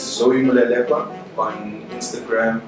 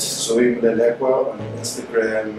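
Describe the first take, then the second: First: It is said in a loud, powerful voice. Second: It is said in a plain, calm voice.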